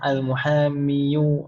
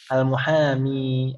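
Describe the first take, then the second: First: The word ends in an added -yu syllable. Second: The word ends in a plain long i. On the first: "kita harokati dhammah ... ini berat sekali untuk diucapkan" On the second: "Bisa kita coba untuk mengucapkannya"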